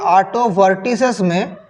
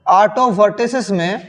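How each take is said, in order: Both takes have the same delivery.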